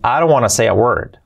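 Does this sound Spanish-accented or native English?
native English. It is pronounced with a native English accent. The speaker calls it right. "Bien dicho"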